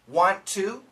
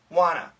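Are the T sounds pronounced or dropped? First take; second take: pronounced; dropped. First: Both T sounds are clearly pronounced. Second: Both T sounds are dropped, giving wanna. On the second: "the natural way"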